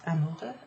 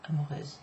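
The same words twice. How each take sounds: First: Amoureux rising, open eu at the end; masculine ending. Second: Amoureuse with a final z; feminine ending. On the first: Teacher checking the adjective, amoureux with open masculine ending. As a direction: say amoureux without any final z. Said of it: "amoureux is the masculine". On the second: Teacher checking the adjective, amoureuse with buzzed feminine ending. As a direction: close amoureuse on a voiced z. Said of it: "amoureuse is the feminine". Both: Shown as a demonstration.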